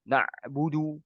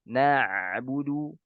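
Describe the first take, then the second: First: The middle consonant sounds like a glottal stop. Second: The middle consonant is a clear throaty ain. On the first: The speaker calls it wrong. "mirip seperti huruf hamzah ... ini tidak diperbolehkan" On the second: The speaker calls it right. "dia tidak seperti suara hamzah"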